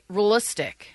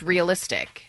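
First: The middle vowel is slurred and nearly dropped. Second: The middle vowel is clearly pronounced. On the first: The speaker calls it wrong. "You say realistic" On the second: The speaker calls it right. "Instead of it's realistic"

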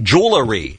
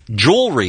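First: The word has an added extra syllable. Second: The word has no added syllable. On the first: The speaker calls it wrong. "what a lot of people say. They're adding extra syllables" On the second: The speaker calls it right.

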